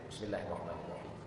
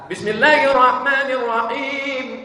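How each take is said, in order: First: It is recited quietly, almost silently. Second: It is recited aloud.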